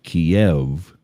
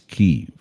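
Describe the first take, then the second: First: The name is said the older, Russian-derived way. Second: The name is said the newer, Ukrainian-derived way. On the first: The name is taken from Russian. The speaker calls it wrong. "we've been spelling it wrong and pronouncing it wrong" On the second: The name is taken from Ukrainian. The speaker calls it right. "it's Kyiv"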